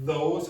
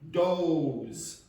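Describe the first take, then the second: First: It is said with a standard English accent. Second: It is said with an Irish English accent. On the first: "You can go with the standard pronunciation" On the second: "or you can do what Irish people do"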